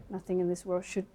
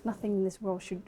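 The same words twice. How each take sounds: The two takes are said the same way.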